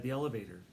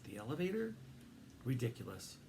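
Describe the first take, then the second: First: Said in the usual way. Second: Incredulous. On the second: A narrator's reading. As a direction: ask elevator in disbelief. First take, questioned.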